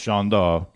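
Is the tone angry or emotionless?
emotionless. It is said flatly, without any emotion.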